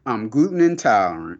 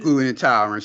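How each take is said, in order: First: Prissy imitation of the reporter; mocking prim voice. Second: Skeptical repeat of her excuse; scoffing. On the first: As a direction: mimic her excuse, prim and fussy. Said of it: "She's like". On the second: Real, not acted. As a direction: say it like you don't buy it. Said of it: "She's lying".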